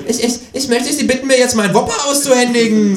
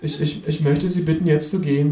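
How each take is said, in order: First: Very high mocking stammer, building louder; high, forceful kangaroo retort; kangaroo parroting the boy. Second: Put-on high, hesitant teenage stutter; timid cashier, high voice; stammering boy. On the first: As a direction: mimic the stutter, then demand loudly. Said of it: "sagt das Känguru". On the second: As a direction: stumble on the first word, pitched up. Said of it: "sagt der Junge". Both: A narrator's reading.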